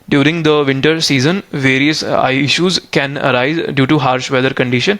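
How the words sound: It is read with hesitant pauses between words. The speaker calls it wrong. "आप pause ले लेके बीच में hesitate हो के रीड कर रहे हो"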